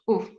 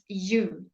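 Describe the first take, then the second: First: The vowel is said without a y glide. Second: The vowel is said with a y glide. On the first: The speaker calls it wrong. "it's not u" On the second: The speaker calls it right. "It's you. ... put the Y in it"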